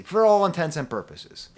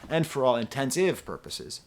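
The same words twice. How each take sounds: First: For all intents and purposes, said clearly and firmly; the correct version, said louder; correct phrase. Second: Intensive purposes said as a deadpan mistake, intensive instead of intents; the mangled idiom, played dry; joke misspeaking. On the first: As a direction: give the proper idiom with a little extra push. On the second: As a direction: slip in the wrong word on purpose, straight-faced. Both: Shown as a demonstration. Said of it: "for both of those purposes".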